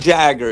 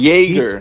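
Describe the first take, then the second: First: The first syllable sounds like 'jag'. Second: The first syllable sounds like 'jay'. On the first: The speaker calls it wrong. "not Jagger" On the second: The speaker calls it right. "It's Jaeger, not Jagger"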